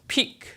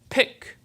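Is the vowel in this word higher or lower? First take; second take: higher; lower. First: The vowel is higher, like in 'peak'. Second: The vowel is lower, like in 'pick'. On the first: "[name] uses a higher vowel" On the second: "[name] uses what we call a lower vowel"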